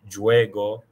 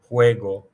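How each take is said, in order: First: The word begins with an English J sound. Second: The word begins with a breathy H sound. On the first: The speaker calls it wrong. "not juego" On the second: The speaker calls it right. "J is pronounced as H"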